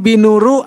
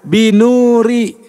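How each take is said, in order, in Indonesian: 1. Kata itu diakhiri vokal u. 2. Kata itu diakhiri vokal i. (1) "Jadi nggak mungkin binuru" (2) "fungsinya membuat kata berikutnya jar atau i"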